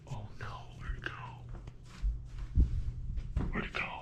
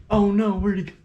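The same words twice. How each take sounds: First: Whispered, fast, worried; whispering. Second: Said in the usual way. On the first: Real, not acted. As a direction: breathe it out in a whisper. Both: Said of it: "repeats in whisper".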